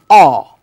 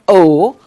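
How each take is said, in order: First: The vowel is the 'or' sound, as in morsel. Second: The vowel is a plain rounded 'oh' sound. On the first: The speaker calls it right. "O and R together make O sound" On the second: The speaker calls it wrong. "not O"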